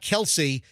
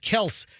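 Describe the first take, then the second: First: The name is said with two syllables. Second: The name is said with one syllable. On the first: The speaker calls it wrong. "no, it's not Kelsey" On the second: The speaker calls it right. "It's Kels"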